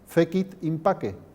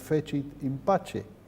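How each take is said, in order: First: It is said with classical Latin pronunciation. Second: It is said with late Latin pronunciation. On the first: "yo pronuncio en latín clásico" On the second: "Seguramente ya pronunciaban entonces"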